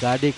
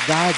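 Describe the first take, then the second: First: The name has two syllables with a final 'eh'. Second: The name is one long syllable with 'ar' vowel. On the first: Some other people say it this way. "कुछ गाडे कहते हैं" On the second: This is how it is said in Danish. "जो डेनिश उच्चारण है उसमें गार्ड"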